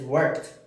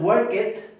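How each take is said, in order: First: The ending adds no extra syllable. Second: The ending is said as an extra syllable. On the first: The speaker calls it right. "es worked" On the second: The speaker calls it wrong. "aquí no es work it"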